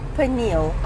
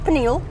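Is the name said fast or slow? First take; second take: slow; fast. First: The name is said slowly, syllables drawn out. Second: The name is said quickly, syllables run together. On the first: The speaker calls it right. "it's on the P and the N" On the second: The speaker calls it wrong. "we say it too quickly"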